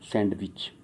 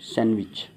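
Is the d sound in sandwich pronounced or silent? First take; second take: pronounced; silent. First: The d sound is pronounced in the middle. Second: The d sound is left silent in the middle. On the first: The speaker calls it wrong. "Mostly क्या use करते हैं" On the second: The speaker calls it right. "डी यहाँ पर क्या है, silent"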